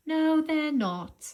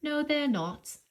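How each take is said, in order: First: No stretched out, higher and louder; emphatic no. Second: Said in the usual way. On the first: Shown as a demonstration. Teacher answering the class emphatically, stressing No. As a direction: hit No hard and draw it out. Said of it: "teacher answers her own question emphatically". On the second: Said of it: "repeat, plain".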